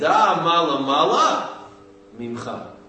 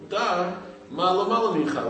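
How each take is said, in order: First: There is a break before the last word. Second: It is read straight through without a break.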